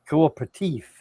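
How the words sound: The word is said in a fancy French-like way. It sounds refined and educated. "gentlemanly education there to be able to say cooperative"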